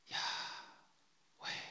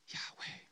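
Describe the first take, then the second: First: The word is drawn out very slowly. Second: The word is drawn out slowly. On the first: "Let's slow it down even more" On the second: "let's just slow down our pronunciation for a minute"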